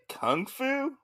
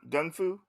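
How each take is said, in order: First: The first word begins with a voiceless K sound. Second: The first word begins with a voiced G sound. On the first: The speaker calls it wrong. "isn't it kung fu?" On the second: The speaker calls it right. "They call it gung fu"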